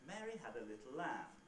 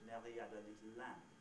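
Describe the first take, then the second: First: It has an English accent with uneven syllable lengths. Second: It has a French accent with even syllable lengths. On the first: "in my normal English accent" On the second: "in a sort of French accent"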